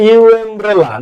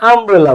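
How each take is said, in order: First: "ইউ আমব্রেলা" said with a "yu" sound before umbrella; wrong pronunciation. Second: "আমব্রেলা" said with a plain "a" sound at the start; right pronunciation. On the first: Teacher to students showing the wrong way, "yu" before umbrella. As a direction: give the mistaken yu-mbrella version. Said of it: "ইউ আমব্রেলা না". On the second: Teacher to students modelling the correct "a" sound. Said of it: "আমরা আমব্রেলা বলি". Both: Shown as a demonstration.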